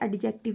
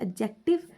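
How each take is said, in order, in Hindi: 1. d की आवाज़ साफ़ बोली जाती है। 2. d की आवाज़ नहीं बोली जाती है। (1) "एडजेक्टिव नहीं पढ़ते" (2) "इसका डी साइलेंट होता है, इसको पढ़ते हैं"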